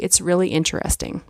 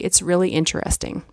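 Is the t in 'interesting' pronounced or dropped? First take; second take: pronounced; pronounced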